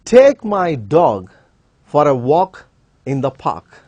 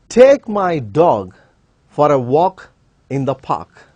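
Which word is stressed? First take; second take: dog; dog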